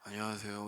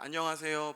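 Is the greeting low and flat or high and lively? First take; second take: low flat; high lively. First: It is said in a low, flat tone. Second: It is said in a higher, cheerful tone.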